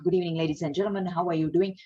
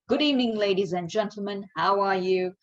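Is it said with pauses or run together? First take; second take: run together; with pauses. First: It is said run together without clear pauses. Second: It is said with clear pauses between phrases.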